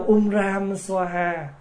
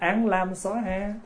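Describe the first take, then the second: First: It begins with um ram. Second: It begins with an lam. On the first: "là tiếng Phạn" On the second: "mình mới âm lại là án lam xóa ha"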